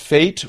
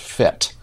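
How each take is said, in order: First: The vowel is long, as in 'late'. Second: The vowel is short, as in 'bet'. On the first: "Might be pronounced fate" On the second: "or it might be pronounced fet"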